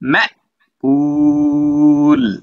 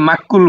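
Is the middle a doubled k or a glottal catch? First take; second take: glottal catch; doubled k. First: The middle has a sharp glottal catch. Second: The middle has a doubled k sound. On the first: The speaker calls it right. "জোরে ধাক্কা মারেন।" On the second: The speaker calls it wrong. "অনেকে মাক্কুল বলবেন।"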